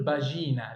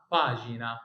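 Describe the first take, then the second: First: باجينا stressed on a long middle syllable; باجينا said wrongly, stretching "jee"; wrong pronunciation. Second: باجينا stressed on the first syllable, PA-ji-na; باجينا as Italian PAA-jee-na; correct pronunciation. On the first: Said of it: "في ناس منكم بتقول". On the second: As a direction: lean on a long "pa" in باجينا. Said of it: "لا اسمها باجينا". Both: Shown as a demonstration.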